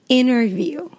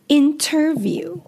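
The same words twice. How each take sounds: First: The T after the N is dropped. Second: The T after the N is clearly pronounced. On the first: "but we would say interview" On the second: "or as it's written"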